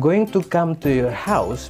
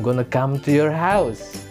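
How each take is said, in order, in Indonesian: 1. 'Going to' diucapkan lengkap, sebagai dua kata. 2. 'Going to' disingkat menjadi 'gonna'.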